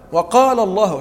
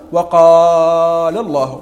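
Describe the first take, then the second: First: The long vowel is held for two counts. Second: The long vowel is not held for two counts. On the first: The speaker calls it right. "وقال الله حركتين" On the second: The speaker calls it wrong. "ولا تقول وقال الله"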